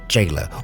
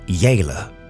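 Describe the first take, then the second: First: The name begins with a J sound. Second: The name begins with a Y sound. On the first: The speaker calls it wrong. "probably better than Jailer" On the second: The speaker calls it right. "We'll go with the Y pronunciation for now"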